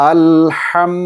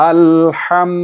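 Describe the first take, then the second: No difference in how they are said.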